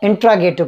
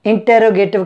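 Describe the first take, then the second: First: इंट्रोगेटिव said in-TRO-ge-tive, "t" and "r" run together; correct pronunciation. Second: इंटरोगेटिव said in-TER-o-ge-tive, with a full "ter"; common mispronunciation. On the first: English teacher correcting learners' reading, model pronunciation of इंट्रोगेटिव. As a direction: say इंट्रोगेटिव with "tro", no vowel between t and r. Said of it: "इसकी सही pronunciation".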